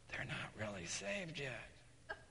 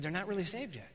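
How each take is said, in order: First: Very soft, slow confiding; retold low, hushed confession; hushed admission. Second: Soft echo at normal pace; quicker, quiet repeat of what was heard; questioning echo. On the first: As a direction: confess it almost under your breath. Young man confesses privately to pastor. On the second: Retold or imitated. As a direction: repeat the confession back, puzzled. Pastor repeats the confession back.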